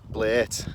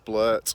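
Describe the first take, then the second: First: It is said in a Liverpool accent. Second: It is said in a plain standard accent.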